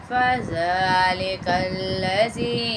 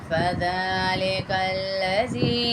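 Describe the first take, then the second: Both takes have the same delivery.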